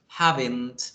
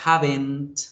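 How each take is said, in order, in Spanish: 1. Se dice como una sola palabra contraída. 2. Se dice como una sola palabra contraída.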